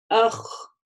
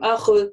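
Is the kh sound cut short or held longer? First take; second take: held longer; cut short. First: The kh sound is held for a moment. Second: The kh sound is cut off quickly. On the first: The speaker calls it right. "говорим ах, ах, да, то есть у нас как бы чуть-чуть слышен этот звук какое-то время" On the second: The speaker calls it wrong. "мы не говорим ах"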